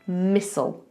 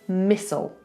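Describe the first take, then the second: First: The t sound is silent in the middle. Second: The same.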